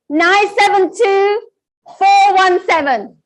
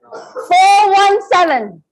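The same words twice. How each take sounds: First: Said in the usual way. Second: Slow repeat. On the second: Shown as a demonstration. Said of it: "repeat of number".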